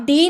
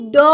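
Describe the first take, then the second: First: "डी" as the alphabet name, dee; letter name. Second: "ड" as the letter's sound, duh, not dee; phonic sound. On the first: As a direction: say "डी" with a long ee. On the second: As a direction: sound out "ड" with an open vowel, no ee. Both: Shown as a demonstration. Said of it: "डी नहीं ड".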